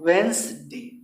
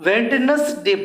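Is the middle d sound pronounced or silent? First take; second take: silent; pronounced. First: The middle d and extra syllable are dropped. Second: The middle d and extra syllable are pronounced. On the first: The speaker calls it right. "इसको वेंसडे पढ़ते हैं" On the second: The speaker calls it wrong. "अपना लोग वेडनेसडे बोलते हैं"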